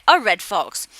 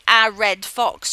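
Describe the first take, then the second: First: The word 'a' has a reduced 'uh' vowel. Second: The word 'a' has a full vowel. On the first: The speaker calls it right. "you'd say" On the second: The speaker calls it wrong. "you wouldn't say"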